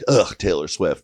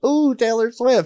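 First: It sounds disgusted and dismissive. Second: It sounds excited and thrilled.

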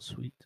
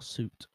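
First: It is pronounced like the word 'sweet'. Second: It is pronounced like the word 'suit'. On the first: The speaker calls it wrong. "not sweet" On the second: The speaker calls it right. "Or suit, not sweet"

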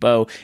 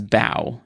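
First: It is said like the bow for arrows. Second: It is said like bowing to someone. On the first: A weapon for shooting arrows. The speaker calls it right. "as in like bow and arrow type bow" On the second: Bending forward in greeting. The speaker calls it wrong. "as like they bowed to their friends"

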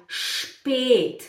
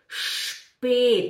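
The two takes are said the same way.

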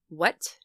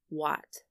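First: The vowel is short and quick. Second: The vowel is held a little longer. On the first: "the first syllable is quick" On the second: "you hold the ah just a little bit"

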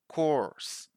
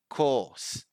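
First: It is said in an American accent with an R sound. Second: It is said in a British accent with no R sound. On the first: "American, In American English, people do pronounce the R" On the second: "British, In British English, we don't pronounce the R"

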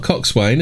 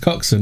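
First: The word is said in full, syllable by syllable. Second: The word is said in a shortened, reduced form. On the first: The speaker calls it wrong. "It's not coxswain, is it?" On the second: The speaker calls it right. "It's coxswain. Because it's bosun, isn't it?"

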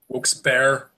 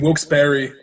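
First: The second part sounds like the word bear. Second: The second part sounds like the word berry. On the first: "like a grizzly bear" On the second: "like a berry, like a strawberry"

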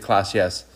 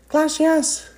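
First: It is said in her normal voice. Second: It is said in a squeaky Mickey Mouse voice.

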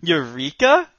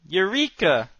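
First: It is said as a rising question. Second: It is said as a confident exclamation.

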